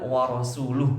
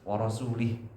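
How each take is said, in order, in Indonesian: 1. Huruf vokal sebelum h terakhir adalah 'u'. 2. Huruf vokal sebelum h terakhir adalah 'i'. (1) "Ini kalau warasuluhunya dia dhammah" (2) "Itu dibaca wa rasulih begitu"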